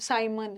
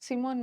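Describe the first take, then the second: First: The first vowel sounds like 'sigh', ending 'mun'. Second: The first vowel sounds like 'see', ending 'mone'. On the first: The speaker calls it right. "साइमन है" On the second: The speaker calls it wrong. "सिमोन मत बोलो"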